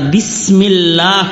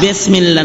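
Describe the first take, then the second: First: The word is articulated carefully and precisely. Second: The word is articulated loosely and carelessly. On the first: The speaker calls it right. "শুদ্ধ করে বলেন" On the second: The speaker calls it wrong. "বিসমিল্লাহ না"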